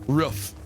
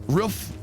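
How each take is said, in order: The two takes are said the same way.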